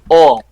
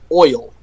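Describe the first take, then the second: First: It is said in a Southern accent, like all. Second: It is said in a plain general accent. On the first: "and then I said all" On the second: "I said oil"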